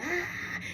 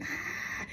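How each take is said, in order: First: High, sudden mock shriek; hammed-up scream of someone falling out; imitated church scream. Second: Imitated holler. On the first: Mocking churchgoers who fall out, high mock scream. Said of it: "they screaming". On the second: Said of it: "they hollering".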